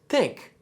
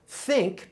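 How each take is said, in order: First: The word starts with a hard t sound. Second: The word starts with a soft th sound.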